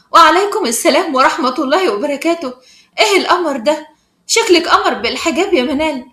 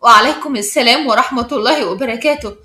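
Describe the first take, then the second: First: Delighted, admiring greeting; lively, happy welcome; joyful. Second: Composed greeting with mild surprise; understated wonder, evenly spoken; calm, puzzled. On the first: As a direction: greet a friend with open joy. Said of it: "وإسراء تقول بفرحة". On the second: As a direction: return the greeting calmly, a little puzzled. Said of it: "ردت إسراء بهدوء وباستغراب". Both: A narrator's reading.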